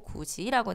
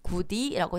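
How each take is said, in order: First: The middle consonant is a 'j' sound. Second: The middle consonant is a plain 'd' sound. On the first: The speaker calls it right. "구지라고 되는 거" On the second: The speaker calls it wrong. "구디라고 되지 않고"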